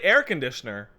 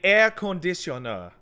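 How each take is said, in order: First: It is said in a plain English accent. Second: It is said in a Japanese-style accent. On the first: The speaker calls it wrong. "Don't say air conditioner" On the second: The speaker calls it right. "Say air conditioner, and that will get across"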